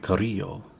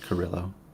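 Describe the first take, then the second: First: The name is said with Spanish sounds. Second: The name is said with English sounds. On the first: This is a possible way that is probably not used. "Because it could be Carrillo, but I don't believe they do" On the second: This is how the named person's family says it.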